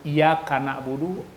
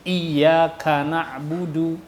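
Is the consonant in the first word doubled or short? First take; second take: short; doubled. First: The y sound is short, not doubled. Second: The y sound is held long and doubled. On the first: The speaker calls it wrong. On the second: The speaker calls it right.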